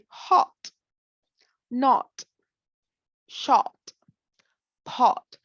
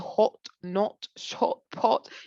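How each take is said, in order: First: The O vowel is said with unrounded lips. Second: The O vowel is said with rounded lips. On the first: "You just say" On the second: "you don't say"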